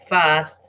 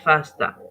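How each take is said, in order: First: The word ends cleanly on the final consonant. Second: An extra vowel is added after the final consonant. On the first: The speaker calls it right. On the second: The speaker calls it wrong.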